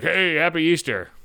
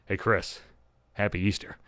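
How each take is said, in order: First: Slow, drawn-out mock greeting; imitated holiday greeting. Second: Low, soft mock approach; imitated tentative greeting. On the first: Mom's boyfriend greeting him at Easter, drawn-out hello. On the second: Boyfriend coming up later at Easter, quiet and tentative.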